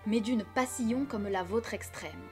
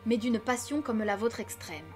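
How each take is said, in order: First: Passion is split into three syllables, pas-si-on. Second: Passion is said in two syllables, everyday style. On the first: The line has the full twelve syllables. The speaker calls it right. "il faut accentuer le hiatus. douze pieds" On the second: The line has only eleven syllables. The speaker calls it wrong. "Si je le prononce comme dans la vie de tous les jours, on obtiendra onze pieds"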